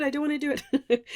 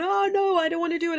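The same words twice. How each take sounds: First: Rushed, whiny repeat of the protest; fast mock whine. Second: High, loud whiny protest, imitating a listener; mock reluctant whine. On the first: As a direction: gabble it like a sulking child. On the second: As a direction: play the frightened student who refuses. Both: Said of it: "have just heard that and gone".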